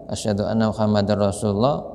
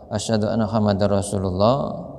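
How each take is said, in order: Both takes have the same delivery.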